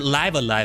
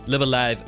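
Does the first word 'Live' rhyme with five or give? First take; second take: five; give. First: The first word rhymes with five. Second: The first word rhymes with give. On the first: The speaker calls it right. "rather, is how you say that" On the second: The speaker calls it wrong. "I always thought it was Live Alive because, you know, you say both pronunciations of the word"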